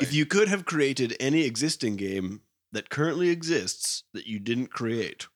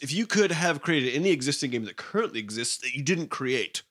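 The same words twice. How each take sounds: First: It is read more slowly. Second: It is read at a normal pace.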